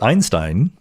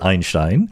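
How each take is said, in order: First: The name is said with an English pronunciation. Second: The name is said with a German pronunciation. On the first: "I say Einstein" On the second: "pronouncing it like Einstein would"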